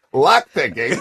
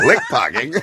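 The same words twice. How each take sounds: First: "lock picking" said clearly and correctly, laughing a little; "lock picking" set right after the slip; corrected line. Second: "lick pocking" said as a garbled swap of lock picking, through a laugh; "lick pocking" with the consonants swapped, laughing; flubbed line. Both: Retold or imitated. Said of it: "a classic one from Resident Evil".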